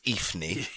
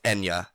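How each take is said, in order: First: The name is said as Ifni. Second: The name is said as Enya. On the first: The speaker calls it wrong. "sort of comes across as Ifni" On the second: The speaker calls it right. "it's actually pronounced Enya"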